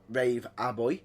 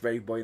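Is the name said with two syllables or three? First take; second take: three; two. First: An extra syllable comes between Rave and Boy. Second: The name has just two syllables, Rave Boy. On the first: The speaker calls it wrong. "as a certain announcement goes" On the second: The speaker calls it right. "It's just Rave Boy now"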